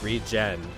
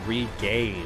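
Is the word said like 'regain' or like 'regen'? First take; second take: regen; regain. First: It sounds like the start of regeneration. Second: It sounds like the word regain. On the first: The speaker calls it right. "I guess I'll pronounce things properly" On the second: The speaker calls it wrong. "for some reason I always called it Regain"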